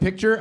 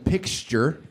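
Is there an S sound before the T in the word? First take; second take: no; yes. First: The word has no S sound before the T. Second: The word has an S sound before the T. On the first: "instead of picture" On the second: "I was saying pixture"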